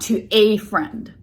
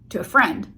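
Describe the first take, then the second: First: The word 'a' is fully stressed and clear. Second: The word 'a' is reduced and barely heard. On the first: The speaker calls it wrong. "not to a friend" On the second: The speaker calls it right. "you will barely hear them"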